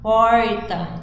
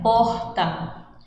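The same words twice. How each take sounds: First: The R is strongly pulled, Minas Gerais style. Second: The R is soft, northern style.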